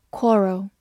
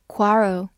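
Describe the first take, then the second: First: Said in the usual way. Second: "quarrel" with an open American "ah" in the first syllable; American pronunciation. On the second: Shown as a demonstration. Teacher showing learners the American variant, "quarrel" with open ah. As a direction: say "quarrel" the American way, like KWAH-rel. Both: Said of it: "美式发音".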